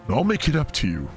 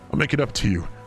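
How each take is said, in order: First: It is said in a different character's voice. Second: It is said in the character's usual voice.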